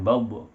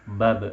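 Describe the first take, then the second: First: The vowel is heavy and rounded. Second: The vowel is light and thin. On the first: The speaker calls it wrong. "bukan bob" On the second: The speaker calls it right. "suara ke bawah, tidak menuju ke atas"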